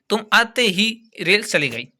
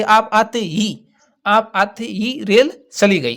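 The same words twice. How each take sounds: First: Said in the usual way. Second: Slow, with ही pressed hard and held; stress on ही. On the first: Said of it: "जैसे आप वाक्य देखिए". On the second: Shown as a demonstration. Teacher shows students the particle ही, slow, with ही stressed. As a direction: lean on the word ही, slowly. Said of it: "ही पर विशेष दबाव डाल देंगे".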